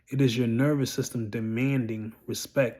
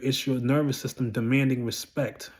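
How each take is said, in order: First: It is said more slowly. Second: It is said at normal speed.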